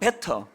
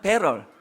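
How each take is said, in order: First: It is said with Korean-style pronunciation. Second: It is said with American English pronunciation. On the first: "우리식으로 하면" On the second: "영어로 말하면"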